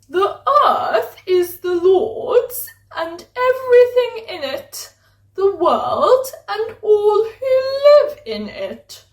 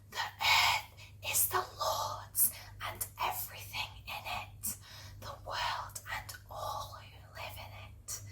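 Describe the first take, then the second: First: It is said in a posh voice. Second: It is said in a normal voice.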